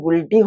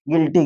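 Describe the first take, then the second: First: A 'u' sound is heard after the g. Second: No 'u' sound is heard after the g. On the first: The speaker calls it wrong. "गुइल्टी होनी चाहिए" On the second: The speaker calls it right. "वो silent हो जाता है। तो यहाँ हो जाएगा गिल्टी"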